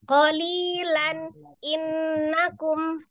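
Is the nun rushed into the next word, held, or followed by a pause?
pause. A pause separates the two words. "yang terjeda tuh gini"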